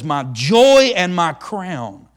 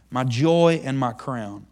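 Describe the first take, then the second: First: Slow, emphatic "joy" drawn out; savoured words. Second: Said in the usual way. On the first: Shown as a demonstration. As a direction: linger on "joy" and "crown".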